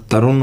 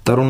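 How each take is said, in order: First: "तरुण" ending in plain n; tongue-tip n at the end of "तरुण"; "तरुण" said as "तरुन"; English pronunciation. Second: "तरुण" with a retroflex ण; Hindi-style "तरुण"; rejected Indian pronunciation. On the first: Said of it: "तरुण होता है". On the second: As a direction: curl the tongue for the end of "तरुण". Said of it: "तरुण नहीं होता". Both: Shown as a demonstration.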